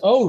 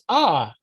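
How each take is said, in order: First: The vowel is a rounded 'oh' sound. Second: The vowel is an open 'ah' sound. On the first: "You can pronounce it as O" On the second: "you can also pronounce it as ah, like hot"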